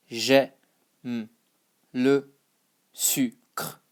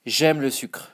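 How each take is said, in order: First: "J'aime le sucre" in separate pieces with pauses; broken-up phrase. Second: Said in the usual way. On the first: Shown as a demonstration. Teacher modelling the phrase for learners, piece by piece. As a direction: sound out "J'aime le sucre" bit by bit.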